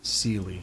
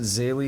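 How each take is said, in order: First: The word is pronounced in an English way. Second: The word is pronounced in a German way. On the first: "Maybe I'll start saying it like that" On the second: "that's kind of how you say a word like that in German"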